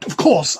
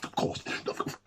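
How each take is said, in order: First: Firm, louder of course. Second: Voiceless whisper. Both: Acted.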